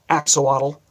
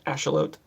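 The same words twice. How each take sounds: First: Pronounced the usual American English way. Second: Pronounced the way Mexican speakers say it. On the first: "Americans usually call them axolotl" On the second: "They call it Axolotl, I think is how they pronounce it"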